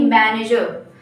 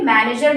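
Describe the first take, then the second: First: "मैनेजर" with silent final r; correct manager. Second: "मैनेजर" with the final r sounded; mispronounced manager. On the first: Teacher modelling the correct word for learners, r-less manager. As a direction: end "मैनेजर" on a schwa, dropping the r. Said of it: "last में र नहीं आना चाहिए". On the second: Teacher showing learners the wrong way, manager with sounded r. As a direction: end "मैनेजर" on an audible r. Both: Shown as a demonstration.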